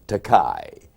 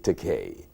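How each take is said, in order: First: The last syllable sounds like 'kai'. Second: The last syllable sounds like 'kay'. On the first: It is a Japanese word meaning expensive. The speaker calls it wrong. "mispronounced my name, calling me Takai" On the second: It is the speaker's actual name. The speaker calls it right. "He swiftly called me Takei"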